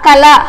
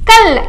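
First: The word ends with a full final vowel. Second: The word ends on the consonant, no final vowel. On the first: This is the Telugu way of reading the letters. "in Telugu we read like that" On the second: This is the Hindi way of reading the letters. "But in Hindi we read क ला कल"

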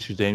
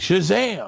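First: The name is said flatly, without energy. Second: The name is said loudly, with gusto. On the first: The speaker calls it wrong. "you don't say Shazam" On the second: The speaker calls it right. "You gotta have some gusto behind it"

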